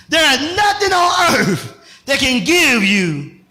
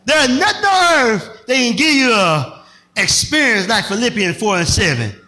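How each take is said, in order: First: First take before flub. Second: Said in the usual way. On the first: Real, not acted. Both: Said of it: "let me try that again".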